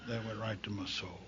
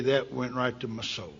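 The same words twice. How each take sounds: First: Much softer, low, almost gone; quiet, heavy repeat; hushed repeat. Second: Said in the usual way. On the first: Real, not acted. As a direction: let "soul" fall away, barely audible. Repeat sinking to near silence.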